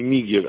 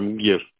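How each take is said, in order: First: An "i" vowel is heard between M and g. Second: No vowel is heard between M and g. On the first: The speaker calls it wrong. "Не Мигер" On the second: The speaker calls it right. "а Мгер. ... не И"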